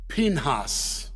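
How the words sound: The name is said with a Hebrew pronunciation. "I'm just impressing you with my Hebrew pronunciation"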